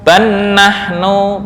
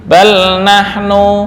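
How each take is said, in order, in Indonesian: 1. Bunyi l menyatu menjadi bunyi n yang ganda. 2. Bunyi l diucapkan jelas sebelum n. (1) "ban nahnu boleh" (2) "atau bal nahnu juga boleh"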